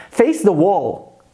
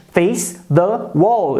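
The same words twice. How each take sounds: First: "Face the wall." said slowly and clearly; teacher models phrase for students, slow; slow model sentence. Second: "Face the wall." again very slowly, stress on wall; teacher repeats for students, very slow. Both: Shown as a demonstration.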